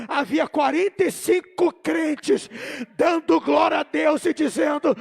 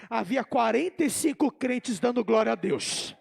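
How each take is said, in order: First: Loud, hammering repeat; emphatic preaching. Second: Said in the usual way. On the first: Real, not acted. Preacher repeating the count of believers for the congregation, emphatic shout. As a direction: drive each word home at full voice.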